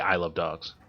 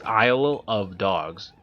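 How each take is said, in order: First: The phrase is said fast and run together. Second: The phrase is said at a normal pace. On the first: "when you say it fast" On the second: "when you say it, it's Isle of Dogs"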